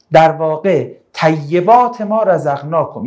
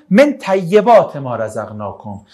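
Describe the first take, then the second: First: Slow reading with طیبات weighted most; slowly re-read the verse, leaning on طیبات; stress on طیبات. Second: Slow recitation leaning on من; stress on من. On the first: Teacher giving the class the more precise reading, stressing طیبات. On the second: Teacher reciting the verse to class, stressing من. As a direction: read out the verse slowly, weighting من. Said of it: "آیه میگه که". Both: Shown as a demonstration.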